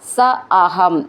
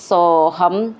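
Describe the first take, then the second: First: The two words are said separately. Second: The two words are merged into one word.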